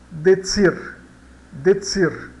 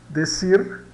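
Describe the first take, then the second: First: "decir" como "detsir", mais alto; C com som de TS. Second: Said in the usual way. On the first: Shown as a demonstration. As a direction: diga "decir" com TS no meio. ("decir" com C soando TS) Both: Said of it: "temos o exemplo aqui".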